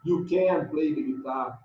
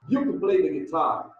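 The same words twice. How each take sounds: First: The word can is said strongly, with stress. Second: The word can is weak and barely heard. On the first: The speaker calls it wrong. "Você não põe a sílaba forte em can" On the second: The speaker calls it right. "É bem sutil"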